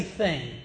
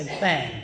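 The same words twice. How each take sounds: First: Said in the usual way. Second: THANG with a Southern "ang" vowel; Southern pronunciation. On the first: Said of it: "could not say thing". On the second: Shown as a demonstration. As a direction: say "thang", rhyming with "hang", for thing. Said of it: "I'd say thang".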